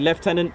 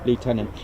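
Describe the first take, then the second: First: It is said in a British accent. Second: It is said in an American accent. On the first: "in England we say" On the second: "I will say it in the U S way"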